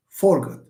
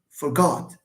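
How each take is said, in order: First: "Forgot" stressed on FOR; stress on first syllable. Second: "forgot" stressed on GOT; reduced first syllable, full GOT in "forgot"; corrected for-GOT for "forgot"; stress on second syllable. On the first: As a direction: hit FOR, weak ending on "Forgot". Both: Shown as a demonstration. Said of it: "There is a difference".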